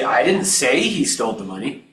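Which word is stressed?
say. The word 'say' carries the stress. It was implied rather than said outright. "I might have implied it"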